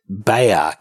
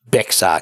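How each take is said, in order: First: The word is said with no x sound. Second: The word is said with an x sound. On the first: The speaker calls it right. "It's actually pronounced Bexar County ... so the X is silent" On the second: The speaker calls it wrong. "not Bexar County"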